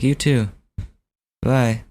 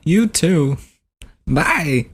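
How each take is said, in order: First: Said in the usual way. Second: High-pitched celebrity impression farewell; Christopher Walken. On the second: Prank caller saying goodbye, celebrity impression. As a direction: sign off high and lilting as the star. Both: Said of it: "I should have just been like".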